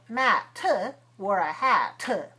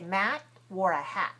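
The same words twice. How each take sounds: First: The final T is released with a puff of air. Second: The final T is held without release. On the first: The speaker calls it wrong. "We don't say Matt wore a hat. That would be kind of weird" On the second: The speaker calls it right. "So we say Matt wore a hat"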